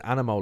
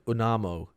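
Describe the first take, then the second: First: The first vowel sounds like the a in 'cat'. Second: The first vowel sounds like the u in 'cup'.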